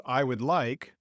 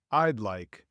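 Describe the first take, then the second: First: "I would like" with "would" said whole; formal, uncontracted "I would like"; full long form. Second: "I'd" as one syllable before "like"; casual contraction "I'd like"; contracted form. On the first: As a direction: keep "I" and "would" separate. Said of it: "Instead of". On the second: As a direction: shorten I would to "I'd". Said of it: "we say". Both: Shown as a demonstration.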